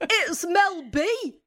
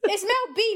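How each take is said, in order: First: Put-on slow, high, wrong-accent [name]; [name] impression. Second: [name] impression. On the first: Guest tries [name] and lands on Paddy McGuinness, slow and high. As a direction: drag out [name] like a Bolton TV host. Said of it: "you sound like Paddy McGuinness". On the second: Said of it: "I'm trying to say".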